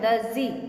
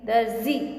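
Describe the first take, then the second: No difference in how they are said.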